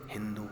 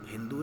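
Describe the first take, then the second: Both takes have the same delivery.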